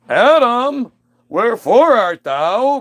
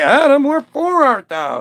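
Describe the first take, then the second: First: Put-on high, loud, slow old-English call; booming God. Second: Booming God. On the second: Acted. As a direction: call out like a theatrical deity. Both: God coming home calling for Adam, loud theatrical.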